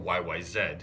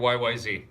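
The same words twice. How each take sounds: First: The last letter is said the Canadian way. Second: The last letter is said the American way.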